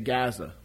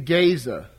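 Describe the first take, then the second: First: The name is said the modern way. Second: The name is said the older way. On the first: This is how it is said today. "Today we say Gaza" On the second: This was the usual way in the past. "That's the more usual pronunciation in the past"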